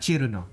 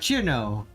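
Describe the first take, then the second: First: The name has Japanese pronunciation with an extra vowel. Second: The name has the Americanized pronunciation without that vowel. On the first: "the way it's pronounced in Japanese" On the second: "the way Americans are taught to speak it"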